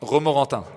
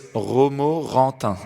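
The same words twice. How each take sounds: First: The word is said at normal speed. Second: The word is said slowly.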